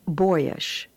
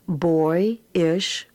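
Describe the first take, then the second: First: Said in the usual way. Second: Put-on Boyish spoken as boy then ish; split in syllables. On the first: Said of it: "and then as the whole word". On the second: Shown as a demonstration. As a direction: sound out Boyish in two parts. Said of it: "read the words as two syllables".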